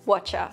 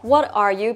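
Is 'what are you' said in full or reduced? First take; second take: reduced; full. First: The words merge into one short word. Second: All three words are pronounced fully and separately.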